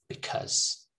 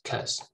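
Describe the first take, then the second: First: The first syllable is reduced to a schwa. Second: The first syllable is dropped entirely. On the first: "most people just say because with a schwa" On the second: "Sometimes they even just say cause"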